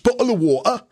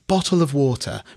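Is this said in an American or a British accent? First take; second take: British; American. First: It is said in a British accent. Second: It is said in an American accent.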